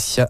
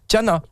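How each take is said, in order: First: The name begins with an S sound. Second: The name begins with a T sound. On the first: The speaker calls it wrong. "pourquoi je dis Siana?" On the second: The speaker calls it right. "Je l'ai très mal prononcé depuis le début de l'émission"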